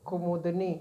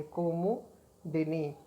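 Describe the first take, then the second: First: Said in the usual way. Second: कुमुदिनी very slow, with the दि vowel clearly sounded; slow careful correction. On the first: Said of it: "कुमुदनी जो है गलत शब्द है". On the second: Shown as a demonstration. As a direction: draw out कुमुदिनी, leaning on the दि. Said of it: "दा के ऊपर भी एक मात्रा लगती है". (कुमुदिनी को बहुत धीरे, दि की मात्रा साफ़ सुनाते हुए)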